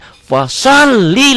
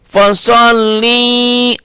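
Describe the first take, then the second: First: The vowels in the word are kept short. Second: A vowel in the word is drawn out long. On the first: It reads the verse with its intended meaning. The speaker calls it right. "Jangan panjang di sini" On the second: It gives the verse a different, mistaken meaning. The speaker calls it wrong. "banyak yang begitu"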